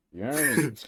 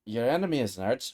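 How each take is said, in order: First: Heroic character voice. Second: Said in the usual way. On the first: Shown as a demonstration. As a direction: say it like the game hero. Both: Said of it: "That's the voice you're going for".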